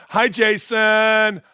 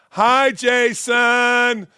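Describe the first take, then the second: First: Said in the usual way. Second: Slow, drawn-out mocking hello; mock sweet greeting. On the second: Shown as a demonstration. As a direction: greet him with fake sweetness, very slowly. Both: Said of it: "And I gotta tell you".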